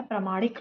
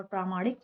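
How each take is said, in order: First: "प्रामाणिक" clipped to short "pra-maanik"; wrong short first vowel. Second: "प्रामाणिक" with long "praa"; correct long first vowel. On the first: Teacher recaps the mistake, short "pra" in "प्रामाणिक". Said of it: "अशुद्ध है". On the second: Teacher recaps the right form, long "praa" in "प्रामाणिक". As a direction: stretch the opening of "प्रामाणिक". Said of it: "शुद्ध है". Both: Shown as a demonstration.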